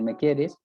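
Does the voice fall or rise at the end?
fall. The voice falls at the end, as a statement. It states that the listener loves the speaker.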